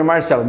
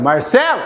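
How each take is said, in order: First: Said in the usual way. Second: "Marcelo" called out with the stress jumping up on "ce"; calling out, stressed syllable. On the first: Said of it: "Você vai chamar teu brother". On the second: Shown as a demonstration. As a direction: call "Marcelo" as if at the gate, leaning hard on "ce". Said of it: "você sempre põe mais força na sílaba tônica". (chamar "Marcelo" no portão, com força no "ce")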